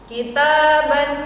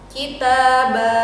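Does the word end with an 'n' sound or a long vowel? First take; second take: n sound; long vowel. First: The word ends with an 'n' sound. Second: The word ends with a long 'a' vowel. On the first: The word is read without stopping after it. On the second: The reader stops after the word.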